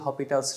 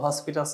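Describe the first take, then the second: First: No s sound comes before the p. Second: An s sound comes before the p. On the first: The speaker calls it right. "এটা এল হপিটালস rule" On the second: The speaker calls it wrong. "হসপিটালস না sorry, মানে অনেকে বলে হসপিটাল"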